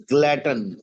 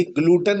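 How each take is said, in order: First: "glutton" with a short open first vowel, GLUT-an; correct pronunciation. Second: "ग्लूटन" with a long oo in the first syllable; mispronounced glutton. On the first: Teacher correcting the students' reading, "glutton" with a short first vowel. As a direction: say "glutton" with no oo sound. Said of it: "ये ग्लूटन नहीं है भाई". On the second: Teacher showing students the wrong reading, mispronounced "ग्लूटन" with long oo. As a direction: say "ग्लूटन" as GLOO-tan, the common misreading. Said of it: "अक्सर बच्चे इसको ग्लूटन पढ़ते हैं". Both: Shown as a demonstration.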